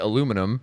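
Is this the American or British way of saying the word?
American. It is said the American way, four syllables. "they don't say aluminum"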